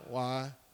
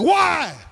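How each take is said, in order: First: It is a plain, casual question. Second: It is an emphatic, pleading cry.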